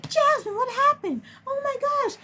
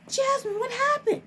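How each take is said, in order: First: High-pitched, distressed imitation of the coordinator; panicked coordinator. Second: High-pitched alarmed imitation of the director; panicked director. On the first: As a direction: squeal it out in mock alarm. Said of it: "the family service coordinator was like". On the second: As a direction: squeak it out like a worried boss. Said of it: "the director was just like".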